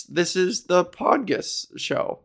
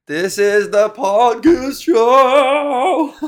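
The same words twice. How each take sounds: First: Said in the usual way. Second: High, loud, slow show announcement; big announcer opener. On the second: Shown as a demonstration. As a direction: belt it like a game-show host. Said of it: "pretty decent for an improvised opener".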